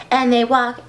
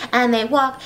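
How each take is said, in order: Both takes have the same delivery.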